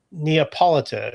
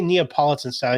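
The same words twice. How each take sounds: First: "Neapolitan" slowly, ending Italian-style in -ano; Italian pronunciation. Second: Said in the usual way. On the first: Retold or imitated. Recalling an Italian pizza man's word, "Neapolitan" said the Italian way. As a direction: give "Neapolitan" an Italian -tano ending, unhurried. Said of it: "He said, "No, n-, n-, n". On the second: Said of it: "he didn't say Neapolitan style".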